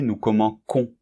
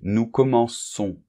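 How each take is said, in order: First: The c is pronounced as a k sound. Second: The c is pronounced as an s sound. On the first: The speaker calls it wrong. "sinon, on prononcerait nous commençons. Et ça n'irait pas" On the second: The speaker calls it right. "on voit qu'il apparaît une cédille"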